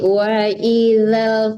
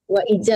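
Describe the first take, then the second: First: The consonant in the second word sounds soft. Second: The consonant in the second word sounds hard. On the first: The speaker calls it right. "Wa izal lembut" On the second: The speaker calls it wrong. "wa ijal lagi"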